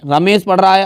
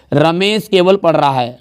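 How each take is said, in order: First: Said in the usual way. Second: केवल leaned on, slow and weighted; slow demo sentence with केवल pushed; stress on केवल. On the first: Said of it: "अब केवल जैसे ही लगा". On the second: Shown as a demonstration. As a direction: press केवल as the key word. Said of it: "जो sentence पे दबाव डाले".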